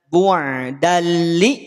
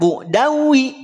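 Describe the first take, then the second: First: The ending merges into an l sound. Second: The ending merges into a w sound. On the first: The speaker calls it right. "Bu'dalli bukan bu'dawi" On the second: The speaker calls it wrong.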